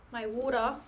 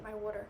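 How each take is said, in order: First: Mock Aussie accent, final r dropped in "water"; Australian accent. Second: Said in the usual way. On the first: Streamer playfully redoing "my water" for viewers, mock Australian accent. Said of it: "My Australian water".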